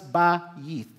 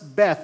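First: The letter name is said as 'Bayit'. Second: The letter name is said as 'Beth'. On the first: The speaker calls it right. "but it's pronounced as Ba-yith" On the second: The speaker calls it wrong. "it's not pronounced as Beth"

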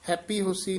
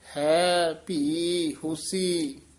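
First: The first two words merge into one word. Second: The first two words stay clearly separate. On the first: The speaker calls it wrong. "ਹੈਪੀ ਹੋਸੀ ਨਹੀਂ ਕਹਿ ਦੇਣਾ" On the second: The speaker calls it right. "ਇਸੇ ਤਰ੍ਹਾਂ ਬੋਲਣਾ ਹੈ"

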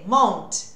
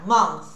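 First: The word ends with a t sound. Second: The word ends with a th sound. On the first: The speaker calls it wrong. "É som de T?" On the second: The speaker calls it right. "Olha o TH"

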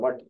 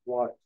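First: The vowel is a short, flat 'uh' sound. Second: The vowel is a rounded 'aw' sound. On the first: The speaker calls it wrong. "मैं बचपन में ना वॉट को वट बोलता था" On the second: The speaker calls it right. "अपने वट को वॉट मैं एक्सेंट के साथ बोलना स्टार्ट किया"

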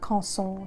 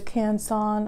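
First: The name is pronounced with French sounds. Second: The name is pronounced with English sounds.

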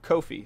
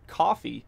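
First: It does not sound like the word coffee. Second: It sounds like the word coffee. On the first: The speaker calls it right. "instead of Kofi" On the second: The speaker calls it wrong. "she was saying coffee instead of Kofi"

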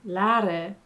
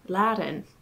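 First: The final N sound is dropped. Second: The final N sound is clearly pronounced. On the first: "why is it said laden" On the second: "instead of laden? There's clearly an N there"

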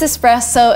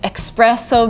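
First: The first syllable sounds like es. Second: The first syllable sounds like ex. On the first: The speaker calls it right. "but no, it is espresso" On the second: The speaker calls it wrong. "you're tempted to say espresso because of express"

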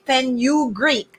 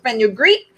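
First: The word is split into separate syllables. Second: The word is said smoothly as one unit. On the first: "if you're going to do it in syllables" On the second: "some people pronounce it fenugreek"

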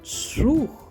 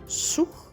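First: The sound is said loudly and strongly. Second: The sound is said quietly and softly. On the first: A big ship is passing by. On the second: A small boat is floating by.

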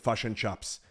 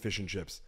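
First: The vowels are shifted, as in a New Zealand accent. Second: The vowels are plain, as in a neutral accent.

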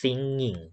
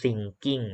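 First: The middle ng is one nasal ng sound. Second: The middle ng is split into separate sounds. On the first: The speaker calls it right. "ต้องอ่านว่า" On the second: The speaker calls it wrong. "อันนี้ไม่อ่านว่า"

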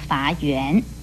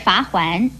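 First: The second syllable is pronounced yuan. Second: The second syllable is pronounced huan. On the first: The speaker calls it wrong. "也不要念成罚圆" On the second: The speaker calls it right. "而罚环也不要念成罚圆"

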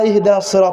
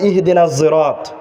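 First: Sirat begins with an emphatic s sound. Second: Sirat begins with a z-like sound. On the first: This is the usual recitation with the letter sad. "ওরা ইহদিনাস সিরাত তেলাওয়াত করবে না" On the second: This is an eased recitation for those who cannot say sad. "ওরা বলবে ইহদিনাজ সিরাত"

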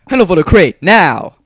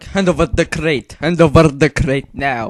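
First: It is said in a plain everyday voice. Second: It is said with a Russian-sounding accent. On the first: "The first is normal voice like I do every day" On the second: "it's like more Russian thing"

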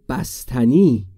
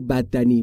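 First: The middle consonants are said as 'st'. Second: The middle consonants are said as 'dd'. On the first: An adult is correcting it. The speaker calls it right. "بگو بستنی" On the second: A small child is saying it. The speaker calls it wrong. "نگو بددنی"

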